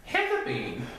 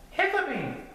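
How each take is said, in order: First: Said in the usual way. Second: High-pitched little cub; high storybook cub; Little Bear character voice. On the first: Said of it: "Father Bear laughed". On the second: A narrator's reading. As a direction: answer high and small like a young bear.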